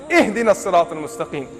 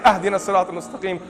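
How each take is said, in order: First: The first word begins with an 'ih' sound. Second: The first word begins with an 'ah' sound. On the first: The speaker calls it right. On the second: The speaker calls it wrong. "You better not say"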